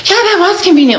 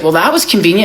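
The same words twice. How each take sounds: First: High, smug "convenient"; smug echo. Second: Said in the usual way. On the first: Retold or imitated. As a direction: play it coy and pleased.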